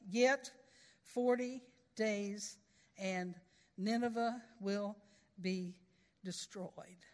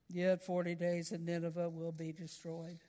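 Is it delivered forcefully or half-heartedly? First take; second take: forcefully; half-heartedly. First: It is delivered with conviction and force. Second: It is delivered quietly, without conviction or thunder.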